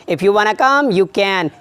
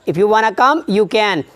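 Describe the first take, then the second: First: Want to is contracted into one word, wanna. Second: Want to is contracted into one word, wanna.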